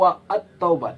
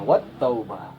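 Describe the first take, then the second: First: A separate syllable 'at' is heard before taubah. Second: Wa runs straight into taubah with no extra syllable. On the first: The speaker calls it wrong. "atau wa at taubah tidak" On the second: The speaker calls it right. "tapi langsung masuk wat taubah"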